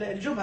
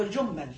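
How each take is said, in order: First: First الجمل with a short single M; no shadda on the م in الجمل; without gemination. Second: Second الجمل with a held double M; doubled M. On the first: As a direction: say الجمل as "al-jumal". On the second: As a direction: say الجمل as "al-jummal". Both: Shown as a demonstration. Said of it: "بالتشديد وبالتخفيف".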